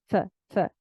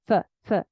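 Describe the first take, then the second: The two takes are said the same way.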